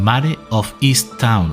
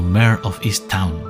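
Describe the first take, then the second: First: The title is read with Spanish sounds. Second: The title is read with English sounds.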